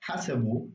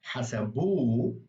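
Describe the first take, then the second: First: Said in the usual way. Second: Hasabu with final -bu stressed and drawn out; stress on last syllable. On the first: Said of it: "Normally, it would be a different part". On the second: Shown as a demonstration. Teacher shows the silent ha, last syllable of hasabu stressed. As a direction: land hard and long on the end of hasabu. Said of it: "emphasize the last syllable".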